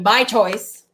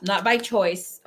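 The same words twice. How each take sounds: First: "by choice" louder and slower; deliberate, loud stress on "by choice"; emphatic correction. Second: Said in the usual way. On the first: Real, not acted. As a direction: correct yourself, leaning firmly on "by choice". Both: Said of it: "I mean, by choice".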